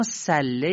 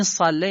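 First: "صله" with a thin, plain S; light S and open front vowel on "صله"; light sin. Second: "صله" with a thick, emphatic Arabic S; dark, full S and vowel on "صله"; heavy sad. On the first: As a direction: say "صله" with an ordinary front S, no throat. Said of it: "با سین". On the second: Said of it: "اما صله یعنی چی با سین". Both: Shown as a demonstration.

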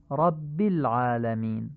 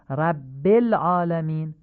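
First: رب العالمین as "rabbil ʕaalamin"; slowly, short i joining رب to العالمین; Arabic ayn in العالمین, i after رب; Arabic kasra. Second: رب العالمین as "rabbel aalamin"; slow, louder demo with e in رب; Persian-style reading. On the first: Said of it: "کسره فصیح گفته بشن". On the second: Teacher shows Persian-style reading first. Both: Shown as a demonstration.

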